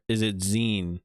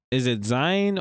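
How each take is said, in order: First: "Zine" with a long ee vowel; "Zine" as in magazine. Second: "Zine" with a long eye vowel; "Zine" rhyming with sign. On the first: Streamer weighing the other pronunciation, "Zine" as "zeen". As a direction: say "Zine" like "zeen", rhymes with seen. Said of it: "'Cause it's like a magazine". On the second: Streamer unsure how to say it, "Zine" as "zyne". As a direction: say "Zine" like "zyne", rhymes with line. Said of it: "Is it Zine or is it Zine". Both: Shown as a demonstration.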